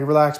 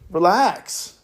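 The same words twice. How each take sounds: First: It is said in a soft, soothing tone. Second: It is said in an odd, strange tone. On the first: The speaker calls it right. "I'm like" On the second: The speaker calls it wrong. "that like weird tone I just did"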